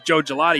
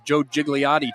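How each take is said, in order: First: The surname is said as Gelati. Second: The surname is said as Gigliotti. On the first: The speaker calls it right. "Find out he's Joe Gelati" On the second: The speaker calls it wrong. "on the Joe Gigliotti train last year"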